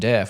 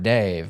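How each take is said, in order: First: The vowel is short, as in 'bed'. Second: The vowel is 'ay' and ends in v. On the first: "the way they were pronouncing deaf" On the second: "I had never heard Dave"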